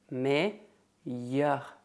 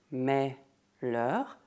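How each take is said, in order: First: The double L is pronounced as a Y sound. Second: The double L is pronounced as an L sound. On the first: The speaker calls it right. "Imagine que o L duplo é um Y" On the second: The speaker calls it wrong. "não se diz mais-leur"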